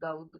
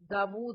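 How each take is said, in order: First: The middle w sound is dropped or blurred. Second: The middle w sound is clearly pronounced. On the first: The speaker calls it wrong. "Urdu में हम आमतौर पे दाऊद दाऊद कर रहे होते हैं" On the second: The speaker calls it right. "दाऊद इसको पढ़ते हैं, ... दाऊद वाव को पढ़ता सही प्रोनाउंस करना चाहिए"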